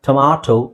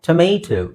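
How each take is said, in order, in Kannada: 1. ಮಧ್ಯದ ಸ್ವರ ತೆರೆದ 'ah' ಶಬ್ದ. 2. ಮಧ್ಯದ ಸ್ವರ ಜಾರುವ 'ay' ಶಬ್ದ. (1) "ಟೊಮಾಟೊ ಅಂತ ಬ್ರಿಟಿಷ್ ಇಂಗ್ಲಿಷಲ್ಲಿ" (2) "ಇಂಗ್ಲಿಷಲ್ಲಿ ಟೊಮೇಟೊ ಅಂತಾನೂ ಹೇಳ್ಬೋದು"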